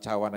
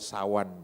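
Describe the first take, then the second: First: The word begins with a 'ch' sound. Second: The word begins with an 's' sound. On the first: The speaker calls it right. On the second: The speaker calls it wrong.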